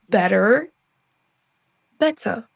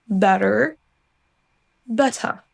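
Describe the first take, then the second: No difference in how they are said.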